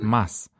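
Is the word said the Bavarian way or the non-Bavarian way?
Bavarian. The word is said the local Bavarian way. The speaker sounds like a local. The speaker calls it right. "das heißt halt Maß"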